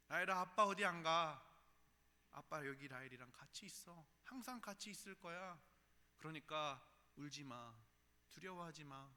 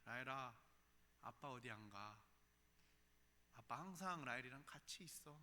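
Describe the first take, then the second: First: Loud earnest opening, then softening; earnest reassurance. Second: Put-on soft, gentle promise to a child; tender reassurance. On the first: Retold or imitated. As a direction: plead with her not to be afraid. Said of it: "그렇게 이야기하는데". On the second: Father softly promising his little daughter he stays, tender. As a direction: hush her fears softly. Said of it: "그 아이에게 그렇게 이야기합니다".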